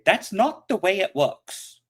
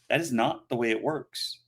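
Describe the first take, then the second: First: It is said in a put-on child's voice. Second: It is said in the speaker's normal adult voice. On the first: It imitates a young child arguing. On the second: The speaker states it himself.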